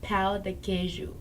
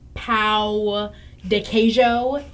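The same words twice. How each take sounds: First: The Portuguese words are said with native-like sounds. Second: The Portuguese words are said with an English-sounding accent. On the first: This is how a Portuguese speaker says it. The speaker calls it right. "My friend speaks Portuguese" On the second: The seller could not understand the order. The speaker calls it wrong. "did you try to pronounce it and just fail?"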